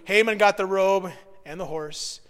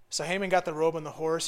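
First: Got punched louder; stress on got. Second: Said in the usual way. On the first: Shown as a demonstration. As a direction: lean on the word got.

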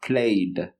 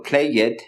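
First: "played" with the tongue touching the palate for a final d; correct pronunciation. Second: "play it" with an extra syllable, as "play" plus "it"; the mistaken "play it" with a spoken e before the d; wrong pronunciation. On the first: Teacher modeling the correct "played" for students. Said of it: "estoy diciendo played". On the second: Teacher showing students the wrong "play it" ending. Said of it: "no estoy diciendo play it". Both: Shown as a demonstration.

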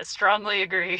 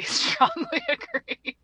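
First: Said in the usual way. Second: Much higher, slow, giggling strongly agree; cracking up at her own answers; laughing repeat. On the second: Retold or imitated. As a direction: laugh it out up high.

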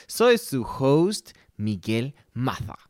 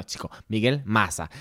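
First: Host introduces himself in a put-on Spain accent, Maza with a lisp; slow, grand "Maza" said "Matha"; mock Spanish accent. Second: "Maza" with a plain s sound, Venezuelan style; Venezuelan pronunciation. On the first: Host poses as a Spaniard, mock Castilian accent. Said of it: "Vamos a pronunciarlo como lo decimos en Venezuela". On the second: Host corrects himself, Venezuelan pronunciation. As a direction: say "Maza" as "Masa", no lisp. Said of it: "como lo decimos en Venezuela". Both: Shown as a demonstration.

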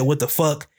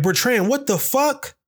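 First: Said in the usual way. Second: High, drawn-out shocked call; mom yelling his name. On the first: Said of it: "she didn't even say it in an angry voice". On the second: Retold or imitated. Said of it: "My mom just yelled my name like".

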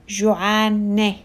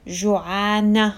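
First: جوعانة ending in an "eh" sound. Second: جوعانة ending in an "ah" sound. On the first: Teacher translating hungry for a girl, جوعانة with "eh" ending. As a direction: say جوعانة with a final "eh". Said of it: "the sound of E H or A". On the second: Teacher showing the feminine ending, جوعانة with "ah" ending. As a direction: say جوعانة with a final "ah". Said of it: "You see how I ended with a". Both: Shown as a demonstration.

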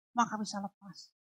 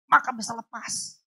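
First: Maka bisa lepas repeated much softer; hushed repeat of Maka bisa lepas; soft echo. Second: Said in the usual way. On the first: Acted. Echoed softly.

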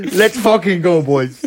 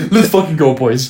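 First: Muffled, breathless helmet radio cheer; putting helmet on. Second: Copying the muffled helmet radio cheer; stuffed-up on-mic driver shout; putting helmet on. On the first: Pretend. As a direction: shout it stuffed up inside a helmet. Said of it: "you sound like you're exhausted, like, stuffed up in your mouth on mic". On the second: Retold or imitated. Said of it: "stuffed up in your mouth on mic".

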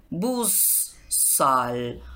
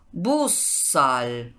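First: Busszal broken as busz, pause, szal; split at suffix. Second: Said in the usual way. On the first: Shown as a demonstration. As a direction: say busszal in two separate parts. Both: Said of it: "Esa es la regla con consonantes".

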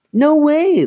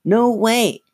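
First: Loud, very high refusal; insistent. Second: High puppet echo; Slappy. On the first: Lindsay refuses Chris, loudly insistent. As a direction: refuse outright, pitch soaring. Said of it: "Lindsay insisted". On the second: Dummy echoes Lindsay's refusal, high puppet voice. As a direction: repeat it as a squeaky dummy. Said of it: "she made Slappy say". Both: A narrator's reading.

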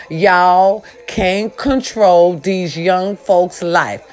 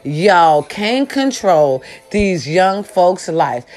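First: Slow emphatic. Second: Drawn out slowly, each word weighed; slow emphatic repeat. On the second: Vlogger repeating her rant line to seniors, slow and emphatic. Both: Shown as a demonstration. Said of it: "One more time".

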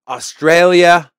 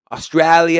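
First: Said in the usual way. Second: Put-on Australia with an Aussie "æ" vowel, light Australian accent; a quick Aussie take on the word Australia. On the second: Host trying an Australian accent for viewers, light Aussie vowel. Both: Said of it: "that was a good accent".

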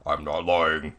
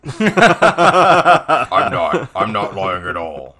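First: Said in the usual way. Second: Laughing denial. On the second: Retold or imitated. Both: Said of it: "I was like".

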